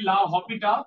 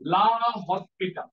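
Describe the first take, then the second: First: No s sound is pronounced before the p. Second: An s sound is pronounced before the p. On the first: "মানে অ্যাকচুয়ালি লা হপিটা, ... অক্ষরের মাঝে এস উচ্চারণ হয় না" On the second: "আমরা এই প্রসেসটার নাম লা হসপিটা"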